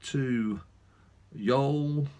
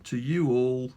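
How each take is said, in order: First: Accidental, light southern US drawl. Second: Said in the usual way. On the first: Real, not acted. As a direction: slip into a touch of American South. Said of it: "suddenly developed a southern drawl there". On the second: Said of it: "I'm not American, what am I doing?".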